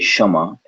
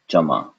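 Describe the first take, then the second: First: It starts with a plain sh and no k. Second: It starts with a ch sound instead. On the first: "Some people will just say shama, get rid of the ka" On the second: "replace that whole thing with a cha sound"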